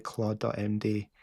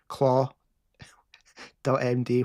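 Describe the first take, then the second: First: Said in the usual way. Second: "claw" with its final d dropped, then "dot M D"; misheard pronunciation. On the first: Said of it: "when I said Claude dot M D". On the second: Shown as a demonstration. Streamer showing what the AI misheard, "claw" without the d. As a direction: say "claw" open-ended, pause, then "dot M D". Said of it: "it's thought I said".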